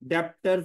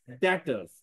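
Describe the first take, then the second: First: A b sound is pronounced before the t. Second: No b sound is pronounced before the t. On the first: The speaker calls it wrong. "डेप्टर्स नहीं पढ़ना" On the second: The speaker calls it right. "बी को silent रखना है आप"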